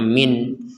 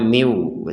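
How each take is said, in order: First: The final n is pronounced clearly. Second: The n merges into a nasal w sound. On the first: The word is read on its own, not joined. "yang awalnya kita membacanya min" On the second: The word is joined to the following word. "sekarang membacanya miu ... disertai dengungan"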